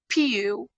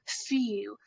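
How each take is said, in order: First: The word begins with a P sound. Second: The word begins with an F sound. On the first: The speaker calls it wrong. "don't say pew" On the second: The speaker calls it right. "It's F E W"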